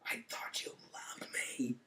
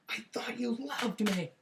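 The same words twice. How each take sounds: First: It is said quietly. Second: It is said loudly.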